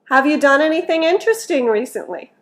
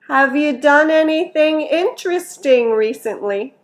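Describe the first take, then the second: First: The sentence is said at a natural quick speed. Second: The sentence is said slowly and carefully.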